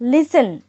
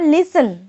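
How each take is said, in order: First: The t sound is left silent. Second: The t sound is left silent.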